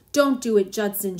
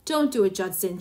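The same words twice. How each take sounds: First: Louder, urgent gasp on "Don't"; frightened wife, pushing "Don't" out hard; gasped plea. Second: Pleading, falling away on "Judson"; understated plea, "Don't" lifted then sinking; begging. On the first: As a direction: stop him in alarm, a touch breathless. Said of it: "she gasped". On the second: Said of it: "she begged". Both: A narrator's reading.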